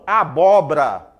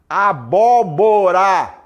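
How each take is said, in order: First: A syllable of the word is dropped. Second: All syllables of the word are pronounced. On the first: The speaker calls it wrong. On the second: The speaker calls it right.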